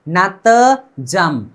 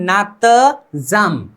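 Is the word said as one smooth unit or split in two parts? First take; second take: split; split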